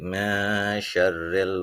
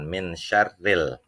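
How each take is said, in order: First: The n is hidden and nasalized into syarril. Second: The n is pronounced clearly before syarril. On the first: The speaker calls it right. "ini ikhfa ... tetapi mesyarril" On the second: The speaker calls it wrong. "jangan min syarril"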